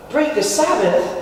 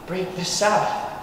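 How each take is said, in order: First: Higher, disbelieving repeat of the charge; pitched-up, incredulous query; incredulous echo. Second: Said in the usual way. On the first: Acted. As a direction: throw it back as an astonished question.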